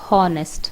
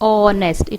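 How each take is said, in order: First: The word starts with an h sound. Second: The word starts with a vowel, no h. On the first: The speaker calls it wrong. "It is not ಹಾನೆಸ್ಟ್" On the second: The speaker calls it right. "It is pronounced ಆನ್ ಆನೆಸ್ಟ್"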